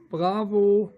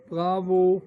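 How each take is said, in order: Both takes have the same delivery.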